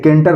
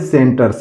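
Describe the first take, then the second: First: The word begins with a K sound. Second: The word begins with an S sound. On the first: The speaker calls it wrong. "ये केंटर नहीं पढ़ेंगे" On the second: The speaker calls it right. "इसको पढ़ेंगे सेंटर"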